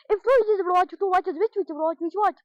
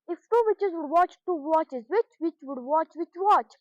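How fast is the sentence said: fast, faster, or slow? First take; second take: fast; slow. First: It is said at a fast pace. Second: It is said at a slow pace.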